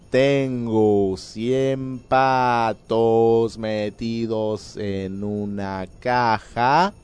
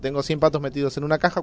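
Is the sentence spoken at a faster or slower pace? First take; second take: slower; faster. First: The sentence is spoken a little more slowly. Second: The sentence is spoken at a normal, quicker pace.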